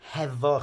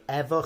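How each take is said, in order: First: The word begins with an h sound. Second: The word begins without an h sound.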